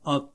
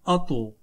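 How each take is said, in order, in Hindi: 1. अंतिम व्यंजन बिना किसी गूंज के अचानक रुक जाता है। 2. अंतिम व्यंजन गूंजती हुई उछाल के साथ छोड़ा जाता है। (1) "अगर हम इसको सिंपल पढ़ें तो ये बनता है" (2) "आवाज लौटती हुई यानी गूंजती हुई निकले"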